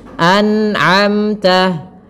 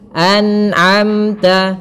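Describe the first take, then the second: Both takes have the same delivery.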